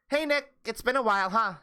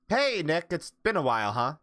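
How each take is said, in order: First: It is read in a put-on character voice. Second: It is read in the speaker's normal voice.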